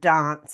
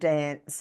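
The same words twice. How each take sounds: First: It has a British-style broad vowel. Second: It has a typical Australian short vowel. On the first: "they thought I was a pom because I said dance" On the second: "instead of dance"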